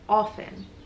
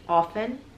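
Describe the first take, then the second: No difference in how they are said.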